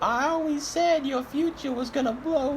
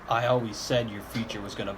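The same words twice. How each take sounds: First: It is said in a put-on old lady voice. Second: It is said in the speaker's normal voice. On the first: The speaker calls it right. "Re- re- rewind the tape" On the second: The speaker calls it wrong. "That's not her voice"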